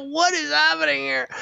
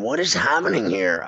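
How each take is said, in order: First: High squeaky disbelief; mock baffled squeak. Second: Said in the usual way. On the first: Watching the choking player, high baffled squeak. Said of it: "I go". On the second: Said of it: "I'm going".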